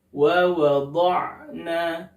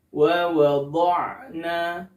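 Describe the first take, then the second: First: The lips stay unrounded on the dhad sound. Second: The same.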